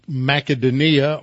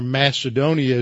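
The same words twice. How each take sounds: First: Macedonia with a hard K, as Makedonia; original-language pronunciation. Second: Said in the usual way. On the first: Shown as a demonstration. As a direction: say Macedonia the old way, "mah-keh-doh-NEE-ah". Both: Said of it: "as we usually pronounce it in English".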